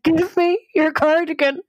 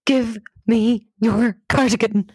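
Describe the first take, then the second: First: High-pitched, frantic retold demand; near-tears desperation. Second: Slow, emphatic plea, word by word; urgent demand. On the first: Insisting to her puzzled friend, desperate high-pitched plea. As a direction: plead urgently, voice pitched right up. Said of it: "kinda starting to cry". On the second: Retold or imitated. Panicking volunteer to her friend, slow urgent demand. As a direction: demand it slowly and forcefully.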